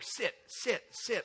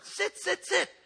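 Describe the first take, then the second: First: It is said at a normal, softer volume. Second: It is said louder and more forcefully.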